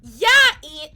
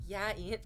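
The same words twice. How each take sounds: First: High, loud, teasing call; loud, high teasing yeah Ian. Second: Said in the usual way. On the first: Real, not acted. Calling out moderator.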